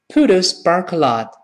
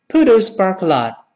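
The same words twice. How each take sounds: No difference in how they are said.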